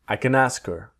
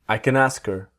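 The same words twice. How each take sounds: First: The h in 'her' is dropped, linking smoothly. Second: The h in 'her' is dropped, linking smoothly.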